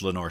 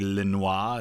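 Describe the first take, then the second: First: The name is said with an English pronunciation. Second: The name is said with a French pronunciation. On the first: "I think it's Lenoir City" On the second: "it could be Lenoir if it's French"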